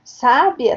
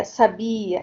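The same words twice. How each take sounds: First: "Sábia" stressed on the first syllable, SÁ-bia; "Sábia" with the accent up front. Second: "sabia" stressed on the middle syllable, sa-BI-a. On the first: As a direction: say "Sábia" with the weight on SÁ. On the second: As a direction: say "sabia" with the weight on BI. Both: Shown as a demonstration. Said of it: "a questão do acento".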